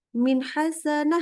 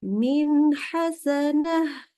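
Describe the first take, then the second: First: The phrase is rushed too quickly. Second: The phrase is said at a measured pace. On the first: The speaker calls it wrong. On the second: The speaker calls it right.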